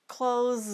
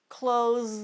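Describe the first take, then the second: The two takes are said the same way.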